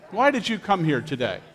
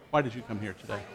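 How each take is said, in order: First: Said in the usual way. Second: Softer, lower repeat of the question; quiet repeat. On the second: Shown as a demonstration. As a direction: ask it again, quietly, to a neighbour. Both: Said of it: "[name], you go ahead and share here".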